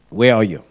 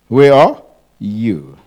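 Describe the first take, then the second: First: The stress is not on "you". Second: The stress is on "you".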